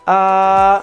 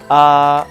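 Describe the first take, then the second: First: The vowel is held level at a higher pitch. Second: The vowel is held at normal speaking pitch. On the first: "le premier ton" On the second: "la voix normale"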